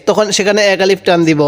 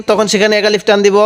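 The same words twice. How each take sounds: The two takes are said the same way.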